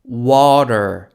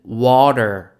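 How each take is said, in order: Both takes have the same delivery.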